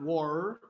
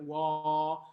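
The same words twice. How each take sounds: First: The vowel closes into an r sound. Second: The vowel stays open with no r sound. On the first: The speaker calls it wrong. "not war" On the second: The speaker calls it right. "a little bit more of a W A H rather than a schwa"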